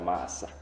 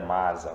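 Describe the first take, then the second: First: The middle consonant is a voiceless s sound. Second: The middle consonant is a voiced z sound. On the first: The speaker calls it right. "vamos dizer massa. Porque S é sempre S" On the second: The speaker calls it wrong. "Aqui não vamos dizer masa"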